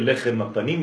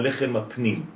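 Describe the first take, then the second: First: The last word is pronounced 'panim'. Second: The last word is pronounced 'pnim'. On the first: It names the bread of the face. "אל תקרא" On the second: It names the bread of the inner side. "אלא"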